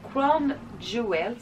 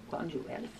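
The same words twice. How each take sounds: First: Bad English accent. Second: Said in the usual way. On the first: Shown as a demonstration. Showing viewers a nail polish name in English accent. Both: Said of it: "j'ai un accent anglais pourri".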